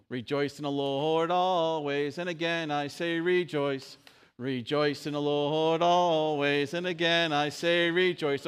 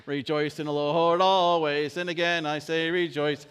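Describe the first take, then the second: First: Sung, teach the song line, slowly; sung, leading the congregation in song; sung verse. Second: Louder, quicker sung verse; sung, congregation speeding up the song; sung a little faster. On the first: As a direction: sing it slow and loud. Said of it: "Let me see if I can teach it". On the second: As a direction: pick up the tempo and sing. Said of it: "Okay, a little faster". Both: Shown as a demonstration.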